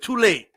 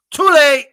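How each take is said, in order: First: Said in the usual way. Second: "Too late" barked high and loud, "too" hit hardest; a louder, higher jeering "Too late"; loud taunt. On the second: Acted. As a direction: shout it at him as a taunt. Repeated taunt at rival, louder.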